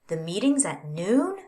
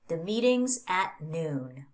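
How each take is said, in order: First: The voice rises at the end. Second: The voice falls at the end. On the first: The speaker wants to clarify the information. "by changing my intonation, I can signal that I want to clarify this sentence" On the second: It states a fact. "even though this is a statement"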